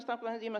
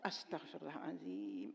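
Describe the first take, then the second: First: It is rattled off quickly and mechanically. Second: It is said slowly and with sincere feeling.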